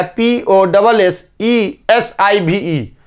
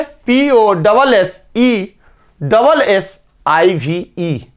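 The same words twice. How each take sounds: First: Slow letter-by-letter spelling with only one double, "P O double S E S I V E"; wrong spelling. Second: Slow letter-by-letter spelling with double twice, "P O double S E double S I V E"; correct spelling. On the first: Teacher spelling the word wrong for students, slow and deliberate. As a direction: spell it the wrong way a child writes it, slowly. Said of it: "हो गया गलत". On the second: Teacher dictating the correct spelling to students, slow and careful. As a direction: spell it out right, slowly, for memorising. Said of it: "तो याद रखेंगे". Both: Shown as a demonstration.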